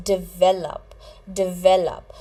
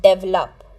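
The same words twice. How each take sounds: First: "develop" stressed on the middle syllable, di-VEL-up; "develop" in three beats, punching VEL; correct pronunciation. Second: "develop" stressed on the first syllable, DEV-lup; "develop" squeezed to two beats, DEV-lup; wrong pronunciation. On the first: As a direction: say "develop" as di-VEL-up, clearly for learners. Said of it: "You pronounce it as". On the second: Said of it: "you don't pronounce it as". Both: Shown as a demonstration.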